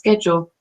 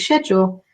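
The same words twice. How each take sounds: First: It is said with an American pronunciation. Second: It is said with a British pronunciation. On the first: "in American English it's schedule" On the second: "in British English it's schedule"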